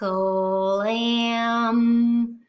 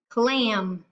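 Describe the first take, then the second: First: The word is stretched out slowly, sound by sound. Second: The word is said quickly as one unit. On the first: "We're going to say it slow" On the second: "Say it fast"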